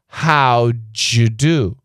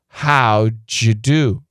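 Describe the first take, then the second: First: The d and y blend into a j sound. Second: The same.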